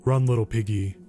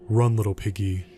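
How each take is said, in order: First: Low, menacing singsong taunt. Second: Much lower, sinister whispered taunt; a chilling final threat; eerie taunt. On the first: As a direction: tease the prey from behind. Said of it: "the man taunted". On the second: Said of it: "the man's eerie taunt". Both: A narrator's reading.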